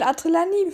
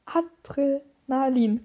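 First: Adrenalin stumbled over, roughly "Atrilanim"; garbled Adrenalin at normal speed; mispronounced Adrenalin. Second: Adrenalin drawn out slowly, piece by piece; slow, careful Adrenalin; very slow pronunciation. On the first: Real, not acted. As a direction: trip over the middle of Adrenalin, swapping its sounds. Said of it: "ich kann's nicht aussprechen". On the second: Shown as a demonstration. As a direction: sound out Adrenalin carefully, with gaps between parts. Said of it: "Dann mach's ganz langsam".

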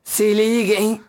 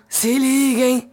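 First: Said in the usual way. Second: Slow drawn-out put-on voice; lightly voiced celebrity impression. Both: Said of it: "Ela nem forçou muito a voz".

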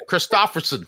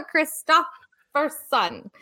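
First: Christopherson in a thick Jersey accent. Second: Laughing through Christopherson, slow, Jersey-style; imitating Jersey accent. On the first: Shown as a demonstration. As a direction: say Christopherson like a New Jersey local. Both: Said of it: "I say it with my Jersey accent".

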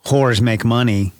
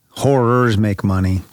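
First: "horrors" squashed into one syllable, like "whores"; slurred syllable. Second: "Horrors" in two distinct syllables, "hor-rers"; both syllables sounded. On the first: Screenwriter slips on a genre name, "horrors" said as one syllable. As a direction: run "horrors" together as a single syllable, "horz". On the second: Screenwriter correcting his slip, "Horrors" said with both syllables. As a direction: articulate the second syllable of "Horrors". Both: Real, not acted. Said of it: "It's an important syllable there".

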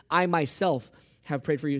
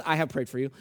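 First: "I myself" given firm weight; emphatic "I myself". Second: Said in the usual way. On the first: Shown as a demonstration. Preacher showing the Greek emphasis, stress on "I myself". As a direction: lean on "I myself" as the added words. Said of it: "He puts in an extra word". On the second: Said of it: "not just".

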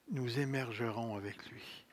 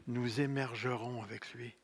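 No difference in how they are said.

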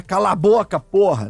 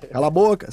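First: Demonstrated stern "shut up"; humorless telling-off. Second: Lighter, playful "shut up"; joking shut-up. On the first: Streamer showing the wrong way to say it, stern. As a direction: say it as a real order, no joke in it. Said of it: "tem que falar dentro do humor ali, não é". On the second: Streamer showing how to say it within humor, playful. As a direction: keep it inside the joke, no bite. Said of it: "você tem que falar dentro do humor". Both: Shown as a demonstration.

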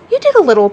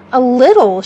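First: Tossed off lightly, a bit louder; careless. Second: Haughty, louder echo of a little; with hauteur. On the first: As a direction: shrug it off carelessly. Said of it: "Peter said carelessly". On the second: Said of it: "she replied with hauteur". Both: A narrator's reading.

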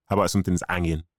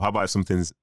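First: Broad Manchester accent; Mancunian accent. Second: Said in the usual way. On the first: Shown as a demonstration. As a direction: say it like a local Mancunian. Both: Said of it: "I'm gonna say it in a Mancunian accent".

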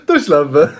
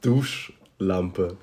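First: "Duschlampe" as Du-Schlampe, high and loud; misread as Du Schlampe. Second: "Duschlampe" slowly as Dusch-Lampe; proper word split. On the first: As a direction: exclaim "Duschlampe" split after Du. („Duschlampe“ laut als „Du Schlampe“) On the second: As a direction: separate "Duschlampe" after Dusch. („Duschlampe“ langsam als „Dusch-Lampe“) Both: Shown as a demonstration. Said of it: "das erste ist Duschlampe".

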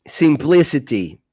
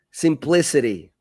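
First: "simplicity" with a crisp, clear British T; British pronunciation. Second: "simplicity" with the final T flapped like a soft R; American pronunciation. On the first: Teacher demonstrating British "simplicity" to the stream. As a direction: say "simplicity" the British way, the T fully sounded. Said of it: "Britânico". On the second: Teacher demonstrating American "simplicity" to the stream. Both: Shown as a demonstration.

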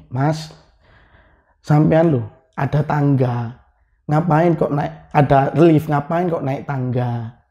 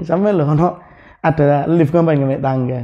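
First: Said in the usual way. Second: Retold, chuckling. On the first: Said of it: "Bahasa Indonesianya gini". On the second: Villager asks why he took the stairs, lightly amused. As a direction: imitate a villager asking with a hint of a laugh. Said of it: "Sambil ketawa gini nih".

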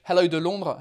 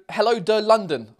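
First: "Londres" said the French way, nasal LON-druh; French pronunciation. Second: "London" said the English way, LUN-dun; French "de", then plain English "London"; English pronunciation. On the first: Streamer retrying a viewer's bilingual greeting, "Londres" in French. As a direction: give "de Londres" a French sound. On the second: Streamer reading a viewer's bilingual greeting, "London" in English. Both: Shown as a demonstration. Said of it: "in half French, half English".

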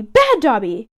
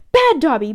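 First: A second light mock shout, dropping in pitch. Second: A light mock shout of self-reproach. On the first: Dobby scolding himself again while banging his head, light mock shout. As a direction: repeat the scolding, falling away. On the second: Dobby scolding himself while banging his head, light mock shout. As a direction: scold yourself sharply, lightly voiced. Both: A narrator's reading. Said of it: "and shouts".

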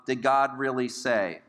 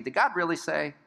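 First: Slow, understated questioning; subtle insinuation. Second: Higher-pitched doubting question; self-justifying question. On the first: Father of lies begins his attack, slow subtle question. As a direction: plant the doubt subtly, taking your time. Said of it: "kind of a subtle". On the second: Sinner justifying sin in heart and mind, higher questioning. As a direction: lightly question it, as if seeking a loophole. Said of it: "some justification going on in our hearts". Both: Acted.

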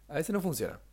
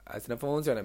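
First: Said in the usual way. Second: A sing-song regional tune on "A veces no funciona"; a hint of hometown accent on the line; slipped into a regional lilt. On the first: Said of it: "me salió la tonada, no me gustó". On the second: Real, not acted. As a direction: let the local accent creep into "A veces no funciona". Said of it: "me salió la tonada".

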